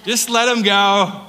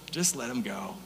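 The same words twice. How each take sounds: First: Louder and slower, a firm exasperated repeat. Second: Soft aside. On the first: John teasing the others about Peter, slow louder repeat. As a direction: let it out openly with a shrug. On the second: John teasing the others about Peter, quiet aside. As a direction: lower and softer, a quiet muttered aside. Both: Acted.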